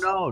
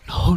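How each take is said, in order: First: It is spoken in a normal voice. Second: It is spoken in a whisper.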